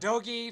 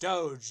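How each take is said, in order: First: The word ends with an added ee vowel. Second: The word ends without an added vowel. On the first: The speaker calls it wrong. "It's not Dogi" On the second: The speaker calls it right. "it's Doge"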